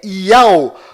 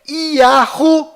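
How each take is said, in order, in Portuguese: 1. Pronuncia-se em duas sílabas, ya-u. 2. Pronuncia-se com um h, ya-hu. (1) "sua pronúncia sempre é Iau" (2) "As mais usadas fora de Israel"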